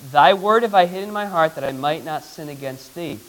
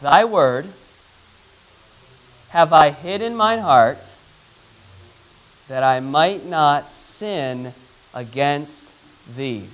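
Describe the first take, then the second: First: Said in the usual way. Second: Verse in short, spaced phrases; measured recitation, fading at the end; slow group recitation. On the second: Shown as a demonstration. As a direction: lead a class reciting, pausing between phrases. Leads class reciting memory verse.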